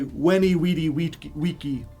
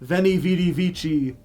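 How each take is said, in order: First: The initial consonants are pronounced as W sounds. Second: The initial consonants are pronounced as V sounds. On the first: This is how it was originally said. The speaker calls it right. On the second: This is how it is commonly said today. The speaker calls it wrong.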